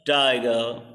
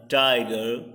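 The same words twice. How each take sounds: First: "tiger" with the weight on TI, falling onto "ger"; verse reading, stressed first syllable. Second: "tiger" stressed on TI, the end lifted as if to go on; verse reading, rising. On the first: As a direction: lean into the first syllable of "tiger" as a poem is opened. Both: Shown as a demonstration. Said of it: "tie is the stressed and girl is unstressed".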